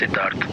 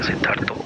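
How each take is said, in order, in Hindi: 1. नाम अंतिम व्यंजन पर समाप्त होता है। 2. नाम के अंत में एक अतिरिक्त o स्वर जुड़ता है। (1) "in Maharashtra and any other uh, cities or states ... my name will be pronounced as Siddharth. That sounds little stylish" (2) "We Bengali, we have a habit to put O"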